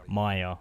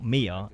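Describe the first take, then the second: First: The first vowel sounds like 'eye'. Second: The first vowel sounds like 'ee'. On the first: The speaker calls it right. "I'm guessing it's Maya" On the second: The speaker calls it wrong. "It's not Mia"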